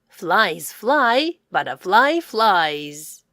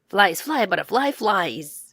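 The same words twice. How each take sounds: First: It is said at a slower, normal pace. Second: It is said at a faster pace.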